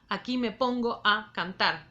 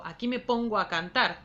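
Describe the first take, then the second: First: Vowels meeting across words are kept in separate syllables. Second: Vowels meeting across words are joined into one syllable. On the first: The speaker calls it wrong. "Yo no digo" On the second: The speaker calls it right. "digo ... Uno eso"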